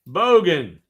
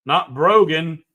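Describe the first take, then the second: First: "Bogan" said cleanly, BOH-gun with no r, falling; firm final "Bogan", BOH-gun, no r; right pronunciation. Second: "Brogan" said with an r after the B, as the wrong word; correcting himself with "Brogan" as the mistake; wrong pronunciation. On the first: Host settling the Australian word, "Bogan" as BOH-gun without r. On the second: Host contrasts Brogan with Bogan, "Brogan" with an r. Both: Shown as a demonstration.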